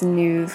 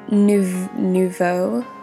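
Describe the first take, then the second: First: The word ends in a 'v' sound. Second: The word ends in an open 'oh' vowel.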